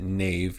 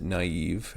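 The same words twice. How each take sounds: First: Nave said as one syllable, rhyming with cave; wrong way. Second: Naive said as two syllables, na-eve; right way. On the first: Teacher shows the wrong way to say naive. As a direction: run the vowels together into nave. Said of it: "you don't pronounce it". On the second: Teacher shows the right way to say naive. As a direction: split the vowels apart in naive. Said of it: "you pronounce it". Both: Shown as a demonstration.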